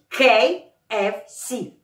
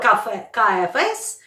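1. Последняя буква произносится как 'see'. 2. Последняя буква произносится как 'ess'. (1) "а надо говорить KFC" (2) "Я раньше говорила KFS"

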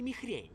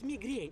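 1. Средний согласный — придыхательный звук h. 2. Средний согласный — твёрдый звук g. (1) "а не михрень" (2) "Мигрень, а не михрень"

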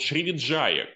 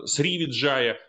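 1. Название начинается со звука sh. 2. Название начинается со звука s.

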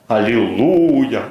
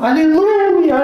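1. Произносится с лёгким настроением. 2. Произносится с сильной эмоцией. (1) "Есть звук настроения" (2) "Есть звук эмоций"

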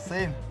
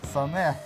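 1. Имя произносится в один слог. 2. Имя произносится в два слога. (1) "Не Сейн"

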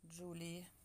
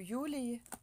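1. Имя начинается со звука 'dj'. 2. Имя начинается со звука 'y'.

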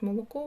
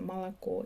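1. Ненаголошені голосні звучать як o. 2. Ненаголошені голосні звучать як a. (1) "росіяни пишуть молоко" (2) "в російській мові читається молоко"

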